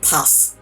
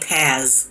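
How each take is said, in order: First: The name is said with its native pronunciation. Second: The name is said as its spelling suggests. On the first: The speaker calls it right. "But I'm pretty sure it's, like, Paz" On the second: The speaker calls it wrong. "the text in me, in me wants to say Paz"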